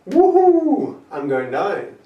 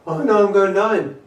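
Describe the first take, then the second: First: It is said in an excited, joyful tone. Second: It is said in a dismayed, gloomy tone.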